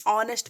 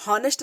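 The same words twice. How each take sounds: First: "ऑनेस्ट" with a silent h, starting on the vowel; correct pronunciation. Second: "हॉनेस्ट" with the h sounded; wrong pronunciation. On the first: Teacher shows students how honest is read, silent-h "ऑनेस्ट". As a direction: open "ऑनेस्ट" straight on "aw", no h. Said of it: "ऑनेस्ट पढ़ेंगे". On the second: Teacher shows students the reading to avoid, h pronounced in "हॉनेस्ट". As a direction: start "हॉनेस्ट" on an audible h. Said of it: "हॉनेस्ट नहीं पढ़ेंगे". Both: Shown as a demonstration.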